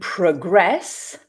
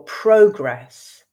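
First: The stress is on the second syllable. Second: The stress is on the first syllable. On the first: It is a verb: to move forward. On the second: It is a noun: forward movement.

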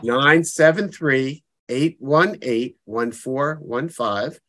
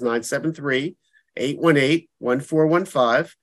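First: The number is said slowly. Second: The number is said fast.

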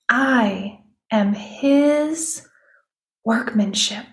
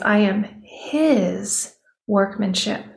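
First: The stress is on the word workmanship. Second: The stress is on the word his.

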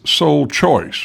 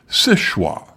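First: It is said like the English words 'sole choice'. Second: It is said like 'sesh-wah', French style. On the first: The speaker calls it wrong. "When I first started researching the area, I pronounced this sole choice, which elicited giggles of derision from the locals" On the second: The speaker calls it right. "nowadays most locals pronounce it séchoir"

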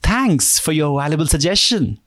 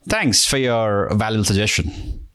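First: The tone sounds happy. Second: The tone sounds sarcastic.

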